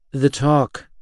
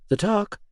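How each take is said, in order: First: Grim, flat confirmation of "talk". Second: High, rising in alarm on talk; startled, pitch jumping up on "talk"; shocked question. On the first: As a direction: say it heavily, no question. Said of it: "I confirmed grimly". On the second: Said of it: "Her eyes widened". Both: Acted.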